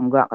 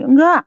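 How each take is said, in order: First: Said in the usual way. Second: High, loud retold "no"; emphatic refusal. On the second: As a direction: imitate a father flatly refusing. Ayah menolak memaafkan, lalu diulang datar. (menirukan bapak menolak dengan keras)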